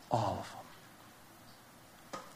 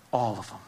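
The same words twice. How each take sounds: First: Slow, hushed whisper. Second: Said in the usual way. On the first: Acted. Preacher whispers the answer to his own question. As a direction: breathe it out slowly and softly.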